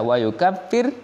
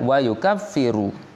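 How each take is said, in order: First: The word ends without a final vowel. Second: The word ends with a final u vowel. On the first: The verb is in the jussive mood, joined to the condition. "bisa dijazmkan" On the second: The verb is in the indicative, starting a new clause. "marfu'an ... alal isti'nafi"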